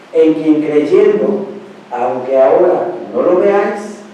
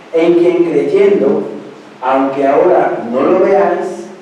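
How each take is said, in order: The two takes are said the same way.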